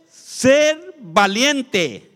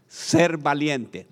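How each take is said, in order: First: Very slow, loud and higher, stretched out; shouted key phrase. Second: Slow, weighty statement of point two; slow key phrase. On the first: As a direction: bellow the point out syllable by syllable. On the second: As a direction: spell out the point slowly for them to repeat. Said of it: "Diga conmigo". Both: Shown as a demonstration.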